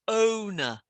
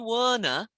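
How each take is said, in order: First: The word starts with a plain vowel. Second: The word starts with a W sound. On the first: The speaker calls it right. "no W, just O" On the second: The speaker calls it wrong. "you tend to say Warner"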